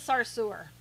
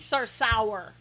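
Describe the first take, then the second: First: The name is said the usual way. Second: The name is said as spelled.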